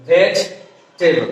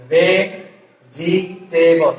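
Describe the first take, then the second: First: Slow ভেজিটেবল in two parts, vej - tebol; American contracted pronunciation. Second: Very slow ভেজিটেবল split as ve - ji - te-bol; common full pronunciation. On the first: Teacher giving the American form, ভেজিটেবল as vej-tebol. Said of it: "ভেজিটেবল না বলে আমরা বলবো কি". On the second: Teacher showing how most people say it, ভেজিটেবল slowly as ve-ji-te-bol. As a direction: sound out each part of ভেজিটেবল with the i kept. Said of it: "প্রায় সবাই উচ্চারণ করি হচ্ছে". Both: Shown as a demonstration.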